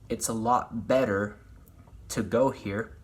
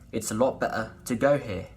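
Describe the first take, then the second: First: The R is sounded as a clear er. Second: The R is dropped, ending in uh. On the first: The speaker calls it wrong. "Instead of" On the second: The speaker calls it right. "you would say"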